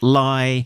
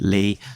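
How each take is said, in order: First: The name is said with a 'lie' vowel. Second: The name is said with a 'lee' vowel. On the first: The speaker calls it wrong. "who I tend to call Chris Lie" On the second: The speaker calls it right. "He says that it should be Lee"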